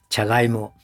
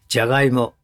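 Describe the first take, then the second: First: The first consonant is a voiceless 'ch' sound. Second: The first consonant is a voiced 'j' sound. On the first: The speaker calls it wrong. "おかしいでしょ" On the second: The speaker calls it right. "濁音でなきゃダメな音"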